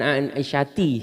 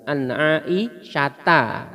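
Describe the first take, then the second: First: The name ends with an 'i' vowel. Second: The name ends with an 'a' vowel. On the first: The speaker calls it wrong. "bukan an Aisyati" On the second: The speaker calls it right. "kita sering dengar an Aisyata"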